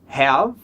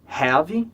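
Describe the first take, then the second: First: It ends cleanly on the final consonant. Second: An extra vowel is added after the final consonant.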